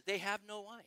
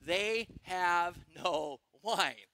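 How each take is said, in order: First: Understated hint at normal pace; motherly hint. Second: Very slow, word by word; deliberate four words. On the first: Preacher voicing Mary to her son, an understated motherly hint. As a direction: drop it lightly, like a mother hinting. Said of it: "as only a mother can, perhaps". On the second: Preacher quoting Mary's four words, slow and deliberate. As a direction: draw out each of the four words. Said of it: "four words". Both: Acted.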